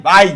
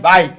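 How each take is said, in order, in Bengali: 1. দুটি স্বরবর্ণ মিশে এক অক্ষর হয়ে যায়। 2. দুটি স্বরবর্ণ মিশে এক অক্ষর হয়ে যায়।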